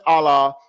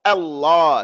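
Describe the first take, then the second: First: "Allah" with a short single l; wrong, shadda dropped. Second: "Allah" with a strong, held double l; correct shadda. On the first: Teacher showing the mistaken name, weak single-l "Allah". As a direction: let the l in "Allah" slip by undoubled. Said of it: "It's not Allah". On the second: Teacher insisting on God's name, firm doubled l. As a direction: press hard on the l in "Allah". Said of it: "the name of our Lord is Allah". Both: Shown as a demonstration.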